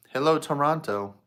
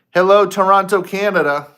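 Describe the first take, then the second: First: Said in the usual way. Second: Loud, higher welcome to the crowd; big greeting. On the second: Real, not acted. Host greets Toronto viewers with a loud call. Greeting the live audience loudly.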